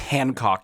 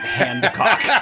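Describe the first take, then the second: First: The first syllable is said without a d sound. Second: The first syllable is said with a d sound. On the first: The speaker calls it right. "it's Hancock" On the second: The speaker calls it wrong. "not Handcock"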